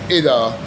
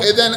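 First: The word ends in a long a vowel. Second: The word ends in an n sound. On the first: The speaker stops after this word. "إذا وقفته" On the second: The word runs on into the next word. "أو لن تفلحوا إذن أبدا"

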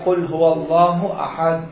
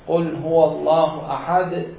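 First: The final d stops with no extra bounce. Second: The final d ends with a slight extra bounce. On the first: "هذا ما بيها قلقلة" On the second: "شوف هذا الصوت هو القلقلة"

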